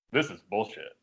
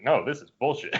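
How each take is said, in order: First: Retold low, quiet grumble; understated, fed-up aside; low grumbled complaint. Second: Firm "No", then "bullshit" insisted; retold insistence on "bullshit", in a fuller voice; insistent repeat. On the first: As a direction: grumble it under your voice, lower and softer. Retelling his muttered complaint to Drew. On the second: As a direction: push back on "No" and land "bullshit" plainly. Repeats complaint when asked if alright.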